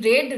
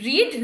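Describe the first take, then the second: First: The vowel is short, like 'red'. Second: The vowel is long, like 'reed'. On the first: It is the past form of the verb. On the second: It is the present form of the verb.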